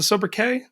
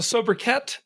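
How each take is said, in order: First: Sobriquet said so-bri-KAY, T silent. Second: Sobriquet said so-bri-KET with the T; T sounded. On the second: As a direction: sobriquet ending in a hard "ket". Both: Shown as a demonstration. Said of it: "is the T silent on that?".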